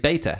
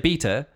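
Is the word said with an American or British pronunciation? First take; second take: American; British. First: It is said with an American pronunciation. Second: It is said with a British pronunciation. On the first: "Americans say beta" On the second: "British people say beta"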